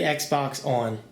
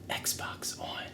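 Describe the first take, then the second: First: It is said in a normal voice. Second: It is said in a whisper.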